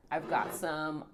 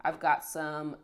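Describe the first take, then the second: No difference in how they are said.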